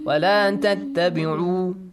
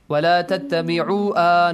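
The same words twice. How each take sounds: First: The silent final letter is not pronounced. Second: The silent final letter is voiced as a vowel. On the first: The speaker calls it right. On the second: The speaker calls it wrong.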